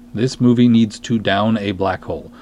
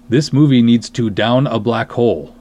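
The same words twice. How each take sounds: The two takes are said the same way.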